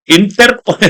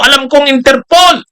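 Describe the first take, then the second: First: Said in the usual way. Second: Higher, ranting Interpol; hammed-up shout on Interpol; mock angry. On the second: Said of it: "galit na galit si Bato noon".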